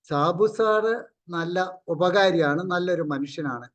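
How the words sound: It is said in a sincere, straightforward tone. The person is genuinely praised. "അത് നല്ല രൂപത്തിൽ പറഞ്ഞാൽ വളരെ നല്ലതാണ്"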